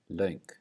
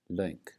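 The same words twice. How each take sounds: First: The vowel glides like a diphthong. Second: The vowel glides like a diphthong.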